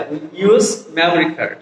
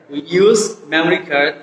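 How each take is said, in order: Both takes have the same delivery.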